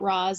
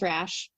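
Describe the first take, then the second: First: The name is said like 'Roz'. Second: The name is said like 'Rash'. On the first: This is how the movie says it. The speaker calls it wrong. "It's said wrong in the movie. It's not Roz" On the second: This is how the comics intend it. The speaker calls it right. "It is Rash"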